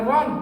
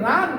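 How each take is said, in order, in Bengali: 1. স্বরটি গোলাকার, ভারী 'o' ধ্বনি। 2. স্বরটি খোলা, গোলাকার নয় এমন 'a' ধ্বনি। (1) "আকার বিহীন করতে হবে" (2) "আকার বিহীন করতে হবে"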